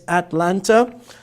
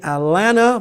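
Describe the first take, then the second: First: It uses the standard pronunciation of the name. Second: It uses a regional American pronunciation of the name. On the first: "but here it's" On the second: "as some Americans say"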